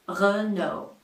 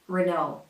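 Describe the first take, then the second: First: It is said with a French accent. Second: It is said with an American accent. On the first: "This one is a French manufacturer, and they say Renault" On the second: "with the American R"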